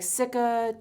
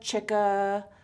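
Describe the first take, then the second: First: The word begins with an s sound. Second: The word begins with a ch sound. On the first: "I've heard it pronounced like Cica" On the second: "those two ways"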